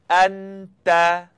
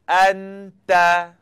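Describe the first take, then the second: Both takes have the same delivery.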